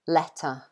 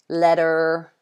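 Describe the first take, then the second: First: It ends with a schwa, no r sound. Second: It ends with a strong r sound. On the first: "this uh sound, is basically at the end of all of these three words" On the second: "so they say the r"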